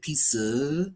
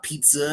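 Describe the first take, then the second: First: It is said with a Japanese accent. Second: It is said with a plain English accent.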